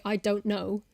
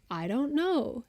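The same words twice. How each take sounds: First: I don't know with crisp, separate consonants; British pronunciation. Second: I don't know with softened consonants run together; American pronunciation. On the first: Showing how a British person says it, crisp I don't know. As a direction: sound the stop in DON'T, British style. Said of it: "British person would say". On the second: Showing how an American might say it, softened I don't know. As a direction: glide through DON'T KNOW, American style. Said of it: "An American might say". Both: Shown as a demonstration.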